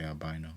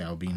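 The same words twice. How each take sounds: First: "albino" said as al-BYE-no; long eye sound in the middle of "albino"; American pronunciation. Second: "albino" said as al-BEE-no; long ee in the middle of "albino"; own al-BEE-no pronunciation. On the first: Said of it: "I think Americans say albino". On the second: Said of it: "I say albino". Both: Shown as a demonstration.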